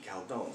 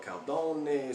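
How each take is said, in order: First: Said in the usual way. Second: "Caldone" with the final e sounded, cal-DOH-nay; alternative pronunciation. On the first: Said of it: "Some of you might call it". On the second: Shown as a demonstration. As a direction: say "Caldone" in three syllables, ending in -nay. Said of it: "Some of you might call it Caldone".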